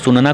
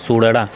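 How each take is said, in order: First: The middle consonant is an n sound. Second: The middle consonant is a flapped r. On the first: This is the standard form. "सुनना को" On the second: This is how Khari Boli speakers say it. "सुड़ड़ा बोलते हैं"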